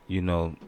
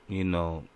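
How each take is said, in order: Both takes have the same delivery.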